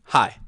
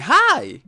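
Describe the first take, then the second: First: "Hi" low and falling, firm and settled; commanding. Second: "Hi" shot way up, louder, with a rising lilt; a high bright "Hi" that lifts at the end; not commanding. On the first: Coach showing the commanding greeting: low, falling "Hi". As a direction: bring "Hi" down at the end like a statement. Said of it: "This is commanding". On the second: Coach showing the wrong, non-commanding greeting: high, rising "Hi". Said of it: "this is not commanding". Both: Shown as a demonstration.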